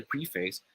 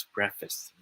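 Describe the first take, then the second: First: Preface said PREE-face; long ee in preface, ending like face; mispronunciation. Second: Preface said PREF-iss; short e in preface, reduced second syllable; correct pronunciation. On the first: Friend says they read the book's opening, mispronunciation. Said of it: "you can correct him or her". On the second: Student corrects a friend from speech class, correct pronunciation. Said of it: "it should be pronounced as". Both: Shown as a demonstration.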